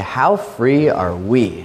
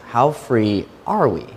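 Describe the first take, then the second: First: It sounds like a joyful, celebrating exclamation. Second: It sounds like a doubtful, probing question. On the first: Freedom is being celebrated. "And everyone says, "Amen."" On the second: The degree of freedom is being questioned. "Or you could phrase it"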